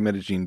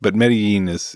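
First: The double L sounds like zh. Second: The double L has no zh sound. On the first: "that's kind of the accent is the zh on the double L" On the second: "But Medellin would be totally fine as well"

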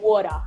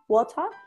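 First: It is said with an American-like Australian T. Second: It is said with a crisp British T.

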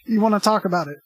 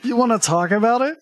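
First: The voice does not rise at the end. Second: The voice rises at the end. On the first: It sounds like a statement. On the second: It sounds like a question.

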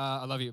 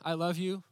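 First: It is said quickly and offhandedly. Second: It is said tenderly and with deep feeling.

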